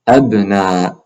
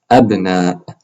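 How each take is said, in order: Both takes have the same delivery.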